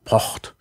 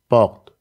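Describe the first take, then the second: First: The R is a voiceless scraping sound. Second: The R is a voiced scraping sound. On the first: "den stimmlosen Uvularen Frikativ" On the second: "die stimmhafte Variante"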